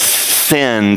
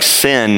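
First: The word is said slowly and clearly. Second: The word is said quickly and blurred. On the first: The speaker calls it right. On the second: The speaker calls it wrong.

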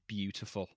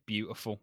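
First: The T in the middle is crisp. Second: The T in the middle is soft. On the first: "I won't say beautiful" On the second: "I'm still a soft T person. I'll say beautiful"

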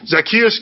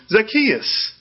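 First: The name is called out in a scolding tone. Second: The name is called out in a welcoming tone.

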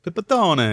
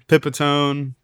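First: The name is said the Italian way. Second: The name is said the American way.

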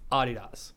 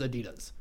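First: It is pronounced the German way. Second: It is pronounced the American way. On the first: "Everywhere in the world, it's Adidas" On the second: "America is the only one that says Adidas"

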